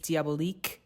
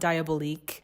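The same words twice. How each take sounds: First: The name is said with French pronunciation. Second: The name is said with English pronunciation. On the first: The speaker calls it right. "It is Diabolique" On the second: The speaker calls it wrong. "It is not Diabolique"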